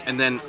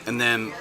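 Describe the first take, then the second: No difference in how they are said.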